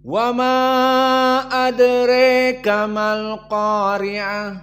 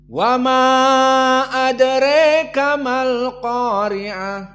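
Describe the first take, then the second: First: The vowel after r in adraka leans toward 'e'. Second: The vowel after r in adraka leans toward 'e'.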